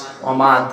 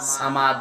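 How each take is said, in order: First: The first s sound is an emphatic s. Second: The first s sound is a plain s. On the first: One who lacks nothing. The speaker calls it right. "সোয়াদ দিয়ে সমাদ" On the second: One who is in need. The speaker calls it wrong. "সামাদ সিন দিয়ে"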